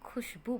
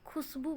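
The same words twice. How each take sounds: First: The middle consonant is an 'sh' sound. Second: The middle consonant is a plain 's' sound. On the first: The speaker calls it right. "इसको हम खुशबू बोलेंगे क्योंकि वहाँ पे श है" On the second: The speaker calls it wrong. "ये गलत उच्चारण है"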